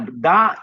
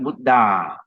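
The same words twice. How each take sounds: First: The final vowel is short. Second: The final vowel is long. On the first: It refers to one Buddha. The speaker calls it right. "is a short A" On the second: It refers to more than one. The speaker calls it wrong. "not Buddha"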